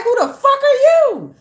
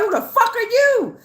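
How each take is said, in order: First: Very high, loud mock yell; mock shout back. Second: Spirit's demand. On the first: Reader firing back at the spirit, hammed-up shout. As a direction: throw it back even louder. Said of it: "And I was like". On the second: Retold or imitated. Spirit confronting the reader, higher mock outrage. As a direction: play the spirit snapping back at her. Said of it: "And they was like".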